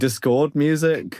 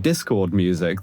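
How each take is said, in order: First: The stress is on the second syllable of discord. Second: The stress is on the first syllable of discord. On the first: It means music of strife and disagreement. "I put the emphasis on the second syllable there" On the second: It means music from the chat app. "if I'd said some Discord music"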